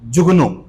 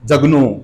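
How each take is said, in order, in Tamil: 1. முதல் உயிர் ஒலி 'u' போல ஒலிக்கும். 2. முதல் உயிர் ஒலி 'a' போல ஒலிக்கும். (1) "complete correct அசென்ட் is ஜுகுனு" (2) "they pronounce the name ஜக்னு அப்படின்னு சொல்லுவாங்க"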